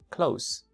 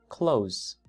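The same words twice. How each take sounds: First: The word ends with a hissing S sound. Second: The word ends with a buzzing Z sound. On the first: The speaker calls it wrong. "No es close ... El último sonido no es S" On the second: The speaker calls it right. "es close. Z. ... es Z"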